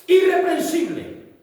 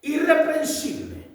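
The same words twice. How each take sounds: First: "Irreprensible" said loud, high and slow, each syllable drawn out; "Irreprensible" pronounced high, slow and loud; emphatic key word. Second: "irreprensible" high and unhurried; emphasized word. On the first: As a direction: declaim "Irreprensible" slowly and high. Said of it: "vamos a ver qué es lo que significa". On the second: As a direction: lift "irreprensible" a little and slow it. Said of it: "La palabra esta". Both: Shown as a demonstration.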